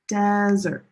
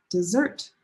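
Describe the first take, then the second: First: "desert" with a loud, held "DES"; first-syllable stress. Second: "dessert" with weak "de", strong "SSERT"; second-syllable stress. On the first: Teacher explaining first syllable, loud stressed start on "desert". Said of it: "The stress is on the first syllable". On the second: Teacher contrasting two words, second-syllable stress on "dessert". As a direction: hit the last syllable of "dessert". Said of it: "These are two very different things". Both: Shown as a demonstration.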